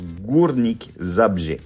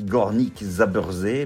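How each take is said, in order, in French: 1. Le nom se prononce à la polonaise. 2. Le nom se lit à la française, lettre par lettre. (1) "mais ça se prononce Górnik Zabrze" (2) "Ça s'écrit Górnik Zabrze"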